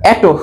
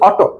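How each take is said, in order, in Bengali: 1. প্রথম স্বরধ্বনিটি একটি 'e' ধ্বনি। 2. প্রথম স্বরধ্বনিটি একটি খোলা 'o' ধ্বনি।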